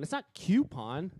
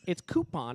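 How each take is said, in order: First: The first syllable sounds like 'cue'. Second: The first syllable sounds like 'coo'. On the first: The speaker calls it wrong. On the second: The speaker calls it right.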